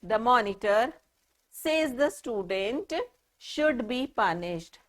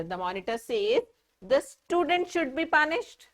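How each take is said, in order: First: The student is the one speaking, so set off "says the student"; pauses for meaning. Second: One pause, after "says", then the quote straight through; the monitor is the speaker, so break only after "says". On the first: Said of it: "can you just see the way I am speaking, the pauses that I am taking". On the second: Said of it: "did you notice the pauses, the difference in pauses when I say". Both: Shown as a demonstration.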